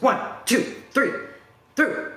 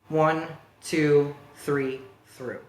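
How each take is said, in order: First: The count is intense and high in energy. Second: The count is calm and low in energy. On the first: It pushes the lifter too hard to last a long set. The speaker calls it wrong. "He was coming, he was" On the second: It helps the lifter settle in for a long set. The speaker calls it right. "I count them in a way that I think will encourage him to stay in for a long set, meaning he's not having to get like super ramped up"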